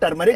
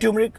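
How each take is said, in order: First: The word begins with a 'tur' sound. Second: The word begins with a 'tyoo' sound. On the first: The speaker calls it right. "अरे टर्मरिक होता है यार" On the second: The speaker calls it wrong. "ट्यूमरिक ट्यूमरिक"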